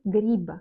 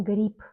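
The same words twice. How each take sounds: First: "grippe" with a voiced final b, "grib"; spelling pronunciation. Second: "grippe" with a crisp final p, "grip"; devoiced final consonant. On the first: Teacher showing the Russian written form, "grippe" as grib. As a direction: end "grippe" on a buzzing b. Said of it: "On écrit grippe". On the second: Teacher showing how one reads it, "grippe" as grip. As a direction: end "grippe" on a voiceless p. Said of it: "on lit comme grippe". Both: Shown as a demonstration.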